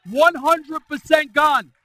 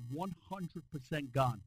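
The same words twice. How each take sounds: First: Higher, much louder and slow, stretching "One hundred percent gone"; emphatic slow repeat. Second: Said in the usual way. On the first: Shown as a demonstration. Pastor proclaiming the healing to the church, slow loud emphasis.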